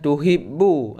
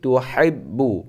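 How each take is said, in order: First: The h is a light, plain breathy sound. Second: The h is a tense sound from mid-throat. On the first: The speaker calls it wrong. "bukan tuhibbu" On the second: The speaker calls it right. "akan tetapi tuhibbu pakai ha ya"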